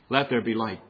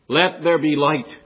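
First: It is said in a flat monotone. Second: It is said with lively, forceful expression. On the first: The speaker calls it wrong. "You could read it in a monotone and it would sound like this" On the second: The speaker calls it right. "I think it's meant to be read like this"

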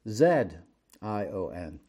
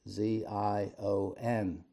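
First: The first letter is said as zed, English style. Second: The first letter is said as zee, American style.

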